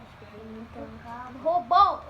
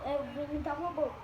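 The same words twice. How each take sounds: First: Said in the usual way. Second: Fast, softer robot voice. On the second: Acted. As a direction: rattle it off like a robot.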